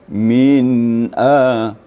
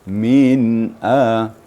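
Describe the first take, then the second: No difference in how they are said.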